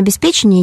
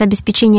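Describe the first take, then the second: First: "обеспечения" said as obesPEcheniya; stress on ПЕ. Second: "обеспечения" said as obespeCHEniya; stress on ЧЕ. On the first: Expert naming the caller's second variant, "обеспечения" stressed on пе. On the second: Expert returning to the caller's question, "обеспечения" stressed on че. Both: Shown as a demonstration. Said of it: "как правильно ставить ударение".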